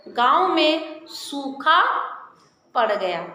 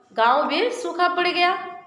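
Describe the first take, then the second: First: Slow comma demo. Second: Said in the usual way. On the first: Shown as a demonstration. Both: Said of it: "यहाँ हम अल्प विराम का प्रयोग करेंगे".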